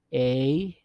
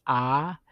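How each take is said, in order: First: A said as English "ay"; English letter A. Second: A said as open "ah", rising; Spanish vowel a. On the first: Teacher naming the English letter first, A pronounced "ay". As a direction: say the letter A to rhyme with "day". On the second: Teacher giving learners the Spanish vowel, a pronounced "ah". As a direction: say a as in "father". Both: Shown as a demonstration. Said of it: "and pronounce 'em".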